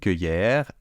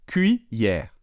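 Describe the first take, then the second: First: The first syllable does not sound like 'kwee'. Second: The first syllable sounds like 'kwee'. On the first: The speaker calls it wrong. "Ce n'est pas une cueillère" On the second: The speaker calls it right. "Cuit-cuit, cuillère"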